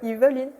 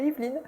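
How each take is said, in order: First: The middle E is pronounced as a syllable. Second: The middle E is silent, not pronounced. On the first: This is the family's way of saying the name. "ma famille prononce le E" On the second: This is the usual way of saying the name. "au lieu de"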